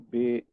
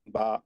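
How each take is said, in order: First: The letter name ends in a long 'ay' vowel. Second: The letter name ends in an open 'ah' vowel. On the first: This is the Persian-style pronunciation. "बड़ी एक ही आवाज आ रही" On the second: This is the Arabic-style pronunciation. "इसको आप अरबी बना देना है तो क्या बोलेंगे?"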